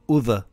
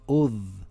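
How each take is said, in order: First: The final consonant is released with a bounce. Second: The final consonant is held plainly, no bounce. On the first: The speaker calls it wrong. "not udh" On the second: The speaker calls it right. "It's udh"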